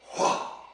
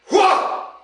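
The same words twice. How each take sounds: First: It is said quietly. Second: It is said loudly.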